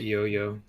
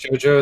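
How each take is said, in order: First: The name begins with a Y sound. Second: The name begins with a J sound. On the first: The speaker calls it wrong. "pronounced it Yo-Yo" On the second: The speaker calls it right. "watch JoJo"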